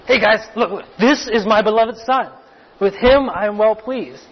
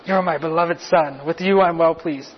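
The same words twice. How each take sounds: First: Lively announcement to a group; declaration to everyone. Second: Personal affirmation. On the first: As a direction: call everyone's attention to him, a bit raised. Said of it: "a declaration to everyone else". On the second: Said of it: "A very personal affirmation right to Richard". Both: Acted.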